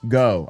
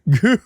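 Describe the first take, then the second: First: The name sounds like 'go' with no w-glide. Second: The name sounds like 'goo' with no w-glide. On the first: "It's not Go" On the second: "I've also said Gu"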